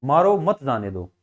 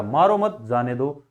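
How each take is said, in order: First: "मारो" set apart, then "मत जाने दो" together, falling low; pause after मारो. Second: "मारो मत" as one group, then lower "जाने दो"; pause after मत. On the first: Teacher contrasting the two meanings, pause after "मारो". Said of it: "हमेशा अलग अलग वाक्य हो गया ना". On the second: Teacher contrasting the two meanings, pause after "मत". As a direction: break after "मत", before "जाने दो". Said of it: "वाक्य का पूरा अर्थ चेंज हो गया". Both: Shown as a demonstration.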